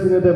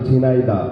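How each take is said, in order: First: The middle syllable has a plain 'e' vowel. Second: The middle syllable has an 'ai' vowel. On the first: It follows the local regional speech. "আমি ঝিনেদা ঝিনেদা বলছি, এটা আসলে আপনাদের আঞ্চলিক ভাষার কারণে" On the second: It is the standard form of the name. "কারণ আসলে ঝিনাইদা"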